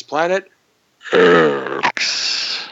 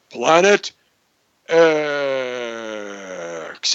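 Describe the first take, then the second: First: X as a very low growl; substitute deep voice. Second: Long, descending deep X. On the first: Host shows those who can't get deep, growling the X. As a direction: fake the depth with a long growled X. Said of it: "if you can't get deep, you go like this". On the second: Host leads everybody on three, in a deep voice. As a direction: lead the chant, stretching X out deep. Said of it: "You gotta say it with a deep voice". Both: Shown as a demonstration.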